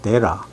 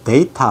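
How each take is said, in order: First: The middle t is dropped and softened. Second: The middle t is clearly pronounced.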